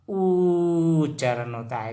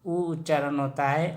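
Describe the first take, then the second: First: ऊ held long before उच्चारण; sustained oo on ऊ. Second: उ said briefly before उच्चारण; quick, unstretched oo on उ; short u. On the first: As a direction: stretch the ऊ right out, slowly. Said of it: "बड़ा ऊ से हमेशा". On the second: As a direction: keep the उ short. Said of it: "और छोटा ऊ से हमेशा". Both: Shown as a demonstration.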